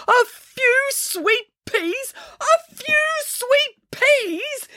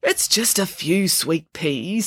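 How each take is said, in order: First: Very high, drawn-out incredulous cry; slow high-pitched yell of disbelief; outraged yelling. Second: Slow, placating tone; smooth it over gently, drawing the words out; slow, calming reassurance; soothing. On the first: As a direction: repeat it in slow, strained outrage. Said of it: "yelled Mister Pilcher". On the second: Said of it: "said the headmaster soothingly". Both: A narrator's reading.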